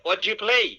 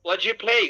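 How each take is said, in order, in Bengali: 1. শব্দগুলো একসাথে মিশে যায় আর 'do' বাদ পড়ে যায়। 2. শব্দগুলো একসাথে মিশে যায় আর 'do' বাদ পড়ে যায়।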